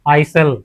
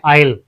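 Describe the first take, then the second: First: The s sound is pronounced. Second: The s sound is silent. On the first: The speaker calls it wrong. "ना कि आइसल" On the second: The speaker calls it right. "इसे हम आइल पढ़ते हैं"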